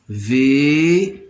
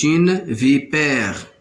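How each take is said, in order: First: "Vipère" very drawn out, vi, pè, re with long pauses; split into syllables. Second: Said in the usual way. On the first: Shown as a demonstration. Teacher sounding out for learners, "Vipère" in three long separate syllables. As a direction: stretch each syllable of "Vipère" on its own. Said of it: "se compose de trois syllabes". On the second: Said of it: "On va découper les mots en syllabes".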